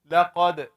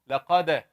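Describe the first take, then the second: First: The final d bounces with no clear vowel. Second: The final d bounces with an a-like vowel. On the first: The speaker calls it right. "It is just shaking the dal as you're saying it" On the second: The speaker calls it wrong. "Some people make it closer to fatha"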